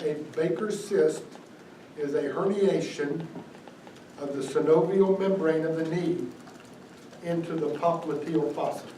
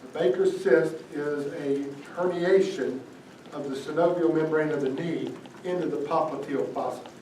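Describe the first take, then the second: First: The sentence is said more slowly. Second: The sentence is said at normal speed.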